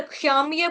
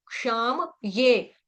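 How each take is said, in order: First: "क्षाम ये" run together, म cut to a half sound; halant म. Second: "क्षाम ये" slowly, with म fully voiced before ये; full म. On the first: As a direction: say "क्षाम ये" wrongly, with no vowel after म. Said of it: "म आपका हलंत हो जाएगा". ("क्षाम ये" में हलंत म, गलत उच्चारण) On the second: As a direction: draw out "क्षाम ये", keeping म whole. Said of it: "अगर क्षाम ये बोल देंगे तो म आपका हलंत". ("क्षाम ये" में पूरा म, धीरे) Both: Shown as a demonstration.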